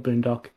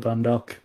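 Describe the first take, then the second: First: The first syllable sounds like 'boon'. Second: The first syllable sounds like 'bun'. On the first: The speaker calls it right. "like with the Boondocks" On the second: The speaker calls it wrong.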